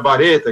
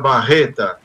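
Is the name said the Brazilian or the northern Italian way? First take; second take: northern Italian; Brazilian. First: The name is said the northern Italian way. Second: The name is said the Brazilian Portuguese way. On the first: This is how the name is said where it came from. "no norte da Itália se pronuncia Bareta" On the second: This is how the name is said in Brazil. "se pronuncia Barreta aqui no Brasil"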